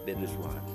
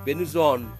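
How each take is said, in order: First: The name is said as two separate words. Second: The name is blended into one word. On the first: The speaker calls it right. "I make space. Venus and One" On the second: The speaker calls it wrong. "dia baca bukan Venus One jadinya. Venuson"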